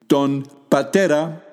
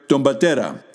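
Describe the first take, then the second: First: Two separate words with a plain n and p. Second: Words run together, n and p become mb.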